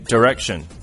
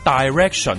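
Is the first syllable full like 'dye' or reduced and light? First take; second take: reduced; full. First: The first syllable is a light, reduced 'd' sound. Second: The first syllable is a full 'dye' sound. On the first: The speaker calls it right. "第一个音节咧系好轻咁嘅音噶，系d 咁音就得噶啦" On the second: The speaker calls it wrong. "咁你就错啦，你一啲都唔识噶"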